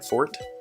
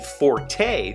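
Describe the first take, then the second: First: The word has one syllable, like 'fort'. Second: The word has two syllables, ending in 'tay'. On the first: It means one's strong point. "identically to the word fort" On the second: It is the musical term. "reserve the forte pronunciation only for the musical term"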